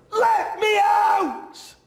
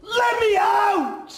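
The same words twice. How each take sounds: First: Very high, loud, slow shout breaking into a cry. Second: Very high, loud, slow yell; desperate shout. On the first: Boy trapped inside, crying as he screams to get out. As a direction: sob and scream it at once. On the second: Boy trapped inside, screaming to be let out. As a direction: drag out each word in a scream. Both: Acted.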